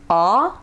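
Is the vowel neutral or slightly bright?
neutral. The vowel is neutral, neither bright nor dark. "a English ah... it's kind of in the middle"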